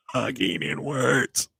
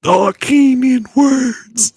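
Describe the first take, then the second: First: Soft inhaled words, slower; talking inwards. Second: Very high, slow, loud inhaled words; talking inwards. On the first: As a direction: quieter breath-in voice. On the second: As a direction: speak on the in-breath. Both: Shown as a demonstration. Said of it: "You have to exhale first".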